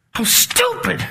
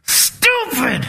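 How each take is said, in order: First: Higher, mocking squeal at yourself; lightly hammed-up self-mockery; mock self-scolding. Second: Self-scolding. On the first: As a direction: scoff at your own foolishness in a high voice. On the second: Retold or imitated. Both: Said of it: "I gave up all this".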